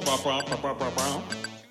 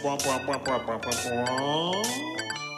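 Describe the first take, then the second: First: The pitch stays level across the phrase. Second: The pitch rises across the phrase. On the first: An answer from the middle of the list is expected. "if the tone is kind of neutral" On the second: A good answer from the top of the list is expected. "If the tone of voice rises during the question"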